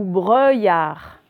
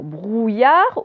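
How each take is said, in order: First: BREUILLARD slow, "eu" in place of "ou"; trying both readings. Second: BROUILLARD slow, with a long "ou"; trying both readings. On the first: Teacher testing two readings, slow clear BREUILLARD. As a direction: draw out the wrong "euille" in BREUILLARD. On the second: Teacher testing two readings, slow clear BROUILLARD. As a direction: draw out the "ouille" in BROUILLARD. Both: Shown as a demonstration. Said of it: "vous essayez".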